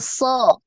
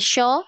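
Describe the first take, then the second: First: The syllable begins with a plain s sound. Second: The syllable begins with an sh sound. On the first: The speaker calls it right. "tapi so" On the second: The speaker calls it wrong. "Jangan syo"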